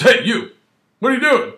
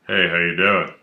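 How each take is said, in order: First: Much higher, louder demanding call; barking cop. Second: Low, easygoing friendly hello; a hint of a pleasant officer, voice lower; friendly cop greeting. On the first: Retold or imitated. Officer challenging a pedestrian, high and loud. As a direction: snap it out like a suspicious officer. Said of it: "He goes". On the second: Officer casually greeting a passerby, lower and friendly. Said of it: "he doesn't really say that".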